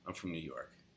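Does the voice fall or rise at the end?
fall. The voice falls at the end, like a statement.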